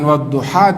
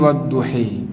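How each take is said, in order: First: The last vowel is a plain open 'a'. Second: The last vowel is bent toward 'e'. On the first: "bukan wadduha" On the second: "dibaca imala"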